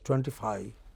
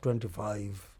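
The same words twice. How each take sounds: First: The final v sound is left out. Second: The final v sound is clearly pronounced. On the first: The speaker calls it wrong. "a lot of people in these places pronounce that number as" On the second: The speaker calls it right.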